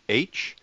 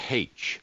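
First: The letter name starts without an h sound. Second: The letter name starts with an h sound.

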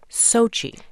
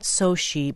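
First: The stress is on the first syllable. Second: The stress is on the second syllable. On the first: The speaker calls it right. "with the stress on the first syllable" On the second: The speaker calls it wrong. "The name of the city is pronounced not Sochi"

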